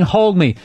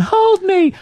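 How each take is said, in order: First: Said in the usual way. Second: High mock toddler whine; a scared toddler begging his mother; mock needy toddler. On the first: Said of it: "literally saying". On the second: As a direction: whine it like a clingy little kid. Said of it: "he's going".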